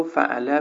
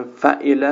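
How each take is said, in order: First: فعله as "fa'ala", middle vowel a instead of i; deliberate vowel slip, "fa'ala" for فعله; wrong middle vowel. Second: Said in the usual way. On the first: Shown as a demonstration. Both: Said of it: "فعله رو فعله بگه".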